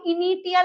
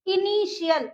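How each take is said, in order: First: The middle consonant is a t sound. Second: The middle consonant is an sh sound.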